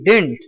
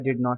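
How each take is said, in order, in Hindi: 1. यह एक संक्षिप्त शब्द की तरह बोला जाता है। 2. यह दो पूरे शब्दों की तरह बोला जाता है। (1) "हम लोग यहाँ बोलते हैं डिड नॉट को डिंट" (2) "ये तो कहने में बड़ा ही तकलीफ होता है"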